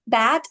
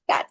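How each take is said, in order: First: The word ends with a voiced d sound. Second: The word ends with a voiceless t-like sound. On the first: The speaker calls it right. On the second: The speaker calls it wrong.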